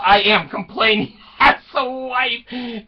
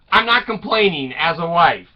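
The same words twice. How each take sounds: First: "am" stressed, higher, laughing delivery; emphatic reversal. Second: Said in the usual way. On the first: Acted. Wife's letter to jailed husband, "am" stressed in comic admission. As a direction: lean on "am" and break into a laugh.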